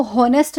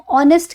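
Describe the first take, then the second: First: "हॉनेस्ट" with a breath of H first; H sounded. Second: "ऑनेस्ट" starting on the vowel; silent H. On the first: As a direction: mispronounce "हॉनेस्ट" by voicing the H. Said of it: "हॉनेस्ट नहीं कहते हैं". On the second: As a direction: say "ऑनेस्ट" as ON-est, no H. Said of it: "H silent होता है". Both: Shown as a demonstration.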